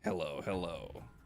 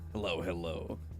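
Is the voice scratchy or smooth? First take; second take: smooth; scratchy. First: It is said in a smooth voice. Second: It is said in a scratchy voice.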